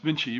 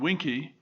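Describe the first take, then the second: First: It begins with a V sound. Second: It begins with a W sound. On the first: This is how most people say the name. The speaker calls it wrong. "which most people pronounce Vinci" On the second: This is the proper Latin way to say the name. The speaker calls it right. "I understand properly the Latin uh, pronunciation Winky"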